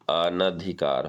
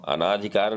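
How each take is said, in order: First: The vowel after 'an' is short. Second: The vowel after 'an' is long. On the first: The speaker calls it right. "बल्कि अनधिकार होता है" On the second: The speaker calls it wrong. "अनाधिकार नहीं"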